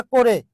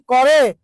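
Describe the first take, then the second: First: Second করে said "ko-re", closed o; o-sound pronunciation. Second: First করে said "kaw-re", open vowel; open-vowel pronunciation. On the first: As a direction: say করে with an o-kar, "ko-re". (করে-কে ওকার দিয়ে "কোরে" উচ্চারণ) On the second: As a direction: say করে without o-kar, "kaw-re". (করে-র ক-তে খোলা অ উচ্চারণ) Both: Shown as a demonstration. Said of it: "উচ্চারণটা কি করে না করে".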